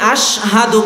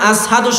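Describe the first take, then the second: First: The word begins with an 'sh' sound. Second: The word begins with an 's' sound. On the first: This is the intended pronunciation. The speaker calls it right. "তিনি আশহাদু বলতে পারতেন না" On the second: This is how it came out with a short tongue. The speaker calls it wrong. "আসহাদু শোনা যেত"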